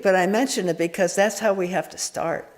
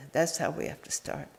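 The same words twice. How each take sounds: First: Said in the usual way. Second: Repeated much softer, to yourself; soft echo. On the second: Shown as a demonstration. Teacher softly repeating the point to the sangha. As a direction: let the repeat sink in quietly.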